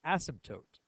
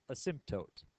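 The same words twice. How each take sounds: First: Asymptote said as ASS-um-tote, stress on the first syllable; the other pronunciation. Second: Asymptote said as uh-SIMP-tote, schwa first, nasal simp; his preferred pronunciation. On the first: Teacher showing the common variant of asymptote, ASS-um-tote. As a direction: open asymptote with a clear short a, ASS-um-tote. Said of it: "started to pronounce it as". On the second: Teacher showing his own way to say asymptote, uh-SIMP-tote. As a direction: start asymptote with a soft uh, stress SIMP. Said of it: "It's pronounced". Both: Shown as a demonstration.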